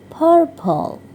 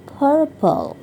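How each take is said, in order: No difference in how they are said.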